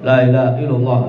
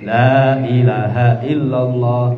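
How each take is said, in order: First: It is said too fast. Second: It is said slowly and carefully.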